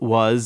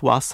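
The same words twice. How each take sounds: First: It ends with a z sound. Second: It ends with an s sound. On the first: "we have it quite frequently" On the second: "which they pronounce routinely as an S"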